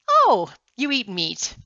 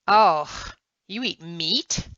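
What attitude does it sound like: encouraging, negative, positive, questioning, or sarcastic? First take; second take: positive; sarcastic. First: It sounds positive and pleased. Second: It sounds sarcastic and mocking. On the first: The speaker is glad the listener eats meat. "A positive statement?" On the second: The speaker means the opposite of the words.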